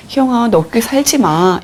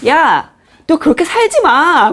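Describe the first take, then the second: First: Gentle version. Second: Higher, slow, scolding "야" with a laugh in it; harsh scolding. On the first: Shown as a demonstration. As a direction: say it like a caring friend. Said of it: "이게 아니라요". (다정하게 이름을 부르며) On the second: Retold or imitated. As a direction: snap at her like a blunt friend. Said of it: "막 이러면". (웃음 섞인 거친 꾸중)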